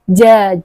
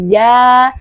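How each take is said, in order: First: The consonant is heavy and overly wet. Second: The consonant is light and clean. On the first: The speaker calls it wrong. "tidak boleh dibaca terlalu uh, apa ya, terlalu becek" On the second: The speaker calls it right. "Jadi ringan saja"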